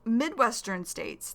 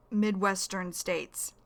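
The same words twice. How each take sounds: First: Said in the usual way. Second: "Midwestern states" said slowly, each syllable clear; teacher modelling "Midwestern states" slowly for learners; slow, careful repeat. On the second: Shown as a demonstration. Slow vocabulary repeat to students of "Midwestern states".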